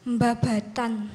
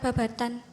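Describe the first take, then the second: First: The word starts with a nasal mb sound. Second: The word starts with a plain b sound. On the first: The speaker calls it right. "memakai hukum tajwid... dibacanya iklab" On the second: The speaker calls it wrong. "Bacanya bukan babatan"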